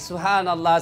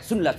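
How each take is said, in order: First: It is said slowly with every syllable clear. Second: It is rushed and clipped to two syllables.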